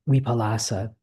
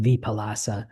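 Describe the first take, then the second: First: The word begins with a W sound. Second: The word begins with a V sound. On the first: This follows the Thai way of saying it. "my V's come out as W's" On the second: This follows the Pali way of saying it. "in Pali, it's it's actually more pronounced like"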